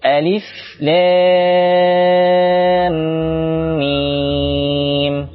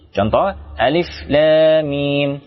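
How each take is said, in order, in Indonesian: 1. Vokal pada lam dibaca sangat panjang. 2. Vokal pada lam dibaca pendek. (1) "Lam mim, enam harakat. Saya ulangi" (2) "Jika membacanya kurang dari enam harakat, maka kurang sempurna"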